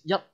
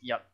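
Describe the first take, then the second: First: The word is said on a high pitch. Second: The word is said on a low pitch. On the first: It means Monday. "the higher one is Monday" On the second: It means Sunday. "The lower one is Sunday"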